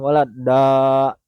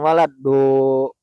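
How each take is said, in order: First: The last syllable ends with an 'a' vowel. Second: The last syllable ends with an 'o' vowel. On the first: The speaker calls it right. "Itu fathah bukan damah" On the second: The speaker calls it wrong. "bukan waladdo"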